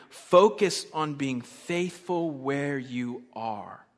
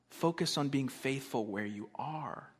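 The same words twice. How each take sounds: First: Slow, deliberate "focus on being faithful where you are"; emphatic announcement. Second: Slow, quieter restatement; soft repetition. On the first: Announcing the point, then repeating it. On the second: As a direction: let it sink in, softly and slowly. Softer repeat of the point. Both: Real, not acted.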